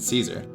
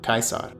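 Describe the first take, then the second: First: The first vowel sounds like 'ee'. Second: The first vowel sounds like 'eye'. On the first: "pronouncing the A-E diphthong as E is an English thing" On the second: "In Latin, it's pronounced I"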